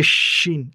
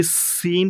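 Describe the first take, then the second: First: "শিন" with a fuller, thicker sh, drawn out. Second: "সিন" with a sharp, hard s, drawn out. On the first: Teacher contrasts the two letters, thick-sh "শিন". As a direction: thicken the opening of "শিন" into a full sh. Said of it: "একটু মোটা করে বলতে হবে". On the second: Teacher contrasts the two letters, slow hard-s "সিন". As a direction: hiss the s of "সিন" and lengthen it. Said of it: "এটি সিন শক্ত". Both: Shown as a demonstration.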